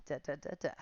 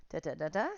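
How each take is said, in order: First: The same da da da da, now breathed as an unvoiced whisper. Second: Said in the usual way. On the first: Shown as a demonstration. Instructor counting for the class in a whisper. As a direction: drop the counting rhythm to a whisper.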